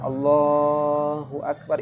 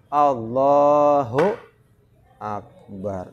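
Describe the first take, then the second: First: The phrase is said smoothly with no break. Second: The phrase is broken by a pause inside. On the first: The speaker calls it right. "itu tidak ada jeda, harus nyambung" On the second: The speaker calls it wrong. "Jangan sampai begini, nah itu putus"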